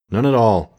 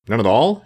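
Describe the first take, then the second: First: Firm answer, "None at all", dropping at the end. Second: NONE AT ALL asked with the voice rising on ALL; louder-ended question on "None at all", tune going up. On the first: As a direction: confirm "None at all" with a falling tune. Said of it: "answered the boy". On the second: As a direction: query "None at all?", lifting the last word. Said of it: "inquired the man". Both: A narrator's reading.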